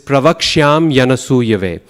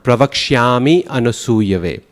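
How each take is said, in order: First: The words are joined by a y glide. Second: The words are joined by an ee vowel. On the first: The speaker calls it right. "this pravakshyam yanasuyave" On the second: The speaker calls it wrong. "pronouncing that Y at the end of pravakshyam as an E sound"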